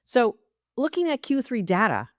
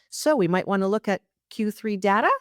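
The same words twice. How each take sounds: First: "data" landing with a firm falling tune; downbeat statement. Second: "data" rising at the end like a question; upward inflection. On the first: Coach demonstrates the fix to listeners, with a firm falling statement tune. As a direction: state "So looking at Q three data" as a fact, dropping the pitch on "data". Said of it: "is a downbeat". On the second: Coach demonstrates the bad habit to listeners, with a rising question tune. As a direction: ask "So we might wanna look at Q three data" as if seeking permission, tune climbing on "data". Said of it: "the upward inflection".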